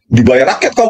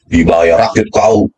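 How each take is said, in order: First: Said in the usual way. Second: "Dibayar rakyat kau" said slowly and lower, dragging out "kau"; slow, low scorn. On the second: Real, not acted. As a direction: lean on "kau" with slow contempt. ("Dibayar rakyat kau" diucapkan pelan dan rendah, menekan "kau")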